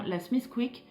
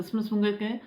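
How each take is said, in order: First: Smith Quick said the French way, every letter sounded out; French pronunciation. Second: Smith Quick said the local Irish way, run together as one blurred word; Irish pronunciation. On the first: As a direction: say Smith Quick plainly as a French speaker would. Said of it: "je vais le dire avec mon accent français". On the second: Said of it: "eux le disent différemment". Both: Shown as a demonstration.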